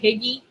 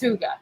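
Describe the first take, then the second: First: The word is said with short i vowels. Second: The word starts with oo and ends in ah. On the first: The speaker calls it wrong. "I would mispronounce it all the time. But I used to call it Higgy" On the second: The speaker calls it right. "It's Huga"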